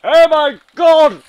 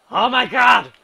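First: Very high, very loud scream; even louder shriek. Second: Much higher, much louder yell; loud shriek. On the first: Gamer screaming even harder at the crash, shriek. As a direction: scream it at full blast. Sudden shock in game. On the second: Gamer screaming at a sudden crash, loud shriek. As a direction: scream it in pure shock. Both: Real, not acted.

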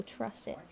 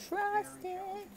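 First: Said in the usual way. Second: High, lilting little coo; playful high voice. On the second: Real, not acted. Playful high repeat of phrase.

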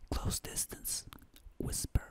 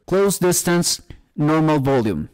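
First: Close, hushed whisper. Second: Said in the usual way. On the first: Shown as a demonstration. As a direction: whisper it right into the microphone.

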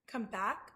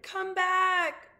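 First: Said in the usual way. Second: High, loud, stretched-out yell; shouted call. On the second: A narrator's reading. Abilene calls her rabbit back from the sea, shouting. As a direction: shout after someone far away. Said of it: "she shouted".

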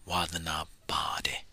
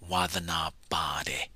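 No difference in how they are said.

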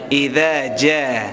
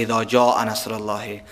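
First: "اذا جاء" drawn out slowly, with a clear "dh" sound in "اذا"; correct tajwid reading. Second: "اذا جاء" said loosely as "ide ja", like everyday Afghan speech; wrong Afghan reading. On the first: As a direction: stretch "جاء" carefully, syllable by syllable. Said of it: "چی میگیم؟". (تلفظ درست و کشیدهٔ "اذا جاء") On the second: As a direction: read "جاء" short and flat, the common mistake. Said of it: "اذا جا نمیگیم". (تلفظ نادرست "اذا جاء" به شیوهٔ عامیانه) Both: Shown as a demonstration.

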